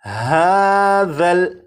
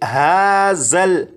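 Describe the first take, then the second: First: The dh sound is soft, without any whistle. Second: The dh sound is hissed with a whistle. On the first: The speaker calls it right. "ज़ाल को नरमी से पढ़ेंगे यानी सीटी की आवाज़ के बग़ैर" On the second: The speaker calls it wrong. "इस तरह से नहीं पढ़ेंगे"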